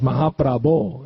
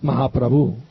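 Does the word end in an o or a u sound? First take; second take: o; u. First: The word ends with an o sound. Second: The word ends with a u sound. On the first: The speaker calls it right. "is Mahaprabho" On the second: The speaker calls it wrong. "It's not Mahaprabhu"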